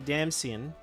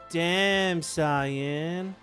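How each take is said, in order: First: The last word sounds like 'sin'. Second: The last word sounds like 'sigh-an'. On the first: The speaker calls it wrong. "we don't say damn sin" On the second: The speaker calls it right. "we say damn cyan"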